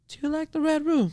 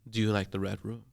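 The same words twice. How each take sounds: First: It is said in a high childlike voice. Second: It is said in a normal adult voice.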